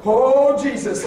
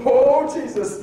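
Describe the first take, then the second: First: A sudden loud cry of alarm; startled cry. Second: A loud startled cry; mild retold panic; alarmed cry. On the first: Retold or imitated. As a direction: yelp at the car ahead. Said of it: "I go". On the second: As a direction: cry out at the near crash. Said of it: "I remember going".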